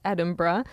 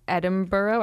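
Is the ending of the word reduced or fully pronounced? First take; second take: reduced; fully pronounced. First: The ending is reduced and unstressed. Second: The ending is fully pronounced, as spelled. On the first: The speaker calls it right. "It's Edinburgh" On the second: The speaker calls it wrong. "I pronounced it wrong"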